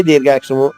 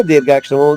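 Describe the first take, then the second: Both takes have the same delivery.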